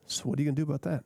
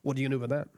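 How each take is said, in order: First: It sounds warm and sympathetic. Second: It sounds harsh and blaming.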